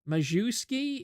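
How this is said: The name has an American pronunciation. The speaker calls it wrong. "if you're pronouncing it like an American"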